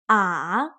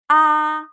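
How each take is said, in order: First: The pitch falls low and then rises. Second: The pitch stays high and level. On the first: "The third tone, it goes down and then up again" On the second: "The first tone, high and flat"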